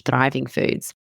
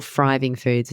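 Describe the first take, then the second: First: Said in the usual way. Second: "thriving" said as "friving", th turned to f; child's lisp. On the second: Retold or imitated. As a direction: imitate Bo saying "thriving" with an f sound. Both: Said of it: "as Bo says".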